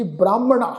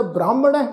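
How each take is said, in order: First: ਬ੍ਰਾਹਮਣਾ ending in long "aa"; modern kanna pronunciation. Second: ਬ੍ਰਾਹਮਣ ਹੈ ending in an "ai" sound; traditional pronunciation. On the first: Teacher shows the missionary colleges' way, ਬ੍ਰਾਹਮਣਾ with final long "aa". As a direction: finish ਬ੍ਰਾਹਮਣਾ on an open "-naa". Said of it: "ਕੰਨੇ ਦੀ ਮਾਤਰਾ ਵਿੱਚ ਉਚਾਰਨ ਕਰਦੇ". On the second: Teacher recalls our own reading, ਬ੍ਰਾਹਮਣ ਹੈ with "-ai" ending. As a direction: close ਬ੍ਰਾਹਮਣ ਹੈ on "-nai", no long "aa". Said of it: "ਜਿਵੇਂ ਇੱਥੇ ਅਸੀਂ ਉਚਾਰਨ ਕੀਤਾ". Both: Shown as a demonstration.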